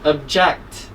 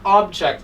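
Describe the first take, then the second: First: The stress is on the second syllable. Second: The stress is on the first syllable. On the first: The speaker calls it right. "the stress is on the second part of the word, second syllable" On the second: The speaker calls it wrong. "So this is not object"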